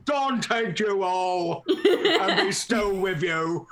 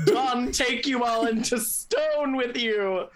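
First: Slow, hammed-up troll voice; comic troll impression, drawn out; William. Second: Slow, higher theatrical call; hammed-up yell, stretched and raised; mock yelled proclamation. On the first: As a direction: drawl it out as an imitated troll. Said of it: "so imagining William's like". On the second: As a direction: draw it out like a grand curse. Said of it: "yell out".

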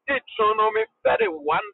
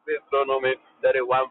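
First: Deuteronomy called out high with a rising tune; announcing the text. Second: Said in the usual way. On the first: Shown as a demonstration. Preacher announcing the scripture to the congregation, called out high. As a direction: ring out Deuteronomy like a pulpit call.

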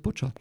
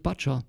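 First: "butcher" with the short vowel of "put"; correct butcher pronunciation. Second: "butcher" with the vowel of "but"; mispronounced butcher. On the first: Learner showing the corrected word, "butcher" with a "put" vowel. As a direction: say "butcher" properly, first vowel as in "book". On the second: Learner showing his habitual mistake, mispronounced "butcher" with an "uh" vowel. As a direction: say "butcher" wrongly, as if spelt "butt-cher". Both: Shown as a demonstration. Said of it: "it should be pronounced butcher".

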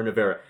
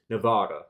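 First: Navara said nuh-VAIR-uh with a falling tune; corrected name. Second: Nevada said as the US state, ne-VAH-da; the wrong name Nevada, stress on the middle; slip of the tongue. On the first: Host corrects himself, Navara said right. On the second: Host misnames the car, Nevada said wrongly. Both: Real, not acted. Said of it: "Or Navara".

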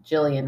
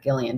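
First: Jillian with a soft J sound; soft G pronunciation. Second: Gillian with a hard G; hard G pronunciation. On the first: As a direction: begin Jillian like the word "jill". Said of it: "saying her name Jillian right and not Gillian". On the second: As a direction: begin Gillian like "gill" of a fish. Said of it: "and not Gillian". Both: Shown as a demonstration.

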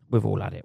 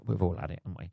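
First: Said in the usual way. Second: Much softer, lower repeat of We've all had it; quieter repeat. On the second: Real, not acted. Wry aside to listeners, much softer repeat. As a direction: say We've all had it again under your breath.

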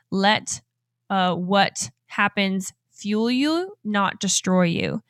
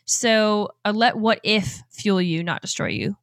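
First: Misread, halting. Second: Said in the usual way. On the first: Shown as a demonstration. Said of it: "so I was trying to read it differently". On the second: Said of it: "I thought I wrote a typo".

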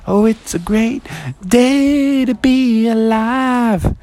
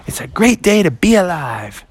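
First: High sung line, drawn out; singing. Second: Higher, joyful spoken exclamation; spoken exuberantly. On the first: Friends pop out of the water singing joyfully. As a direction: sing it out as a joyful chorus. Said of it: "they started singing". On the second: Froggy surfaces from his swim feeling new, exuberant. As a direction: proclaim it happily, without singing. Spoken before friends sing it. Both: Acted.

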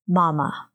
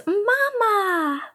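First: Monotone mama. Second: Mama. said much higher, cutesy, slowly falling off. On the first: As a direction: say Mama. flat and bored, like reading a word off a list. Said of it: "Super monotone". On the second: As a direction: coo Mama. up high like a shy little child. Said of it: "it was a lot cuter". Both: Retold or imitated.

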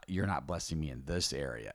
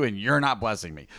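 First: Corrected, softer. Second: Sarcastic complaint. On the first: Shown as a demonstration. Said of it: "correct statement or the accurate statement". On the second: Retold or imitated. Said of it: "kinda cocky and, and sarcastic".

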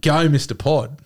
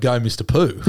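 First: "Go, Mister Pod." with Pod said clearly as pod; the name as it should be, "Pod" with a short o and hard d; intended name. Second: "Go, Mister Pooh." with Pooh said as a long oo, no d; misread name. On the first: What the crowd should have cheered, "Pod" said crisply. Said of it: "they weren't yelling out". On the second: What the crowd actually cheered, "Pooh" with a long oo. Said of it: "They were yelling out". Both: Retold or imitated.

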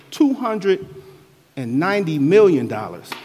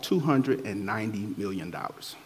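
First: "two hundred" pitched high, pause, "and ninety million dollars" loud; emphatic. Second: Said in the usual way. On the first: Real, not acted. Forgiven servant marvelling at his debt, "two hundred and ninety million dollars" emphatic. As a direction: break after "two hundred", then punch "million". Repeats the forgiven sum for effect.

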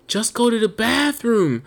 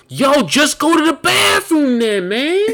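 First: High, slow, less forceful complaint; exasperated pleading. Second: Loud, high, drawn-out exasperated shout; acted-out yell. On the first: Retold or imitated. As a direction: drag it out in mock exasperation. Repeats the rant, easing off. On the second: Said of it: "I wanna just yell and curse and scream".

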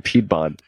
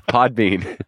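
First: "Pedbon" said PED-bon, a stumbled slip; mispronounced Pedbon. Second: "Podbean" said POD-been, laughing through it; corrected Podbean. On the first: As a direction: blurt "Pedbon" with PED for pod. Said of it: "I can't talk". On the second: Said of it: "I said that last time". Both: Real, not acted.

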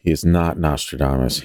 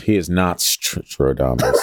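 First: Said in the usual way. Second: "Stradamus" slow, with laughing stress on NOT; pun Stradamus. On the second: Shown as a demonstration. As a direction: say "not Stradamus" as one word.

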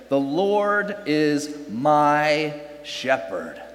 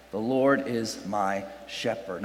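First: Slow, weighty scripture reading; slow solemn quote. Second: Quieter, lower repeat of the verse; hushed echo of the verse; soft repeat. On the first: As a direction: let each word land. Reading the psalm verse slowly. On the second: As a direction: let it sink in softly. Repeats verse softer for effect. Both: Shown as a demonstration.

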